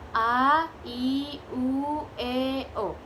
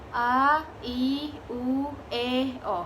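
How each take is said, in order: The two takes are said the same way.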